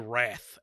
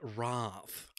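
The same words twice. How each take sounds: First: It is said with a plain, non-British vowel. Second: It is said with an upper-class British vowel. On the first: "it's supposed to be Wrath" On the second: "like a Brit- like an upper class British"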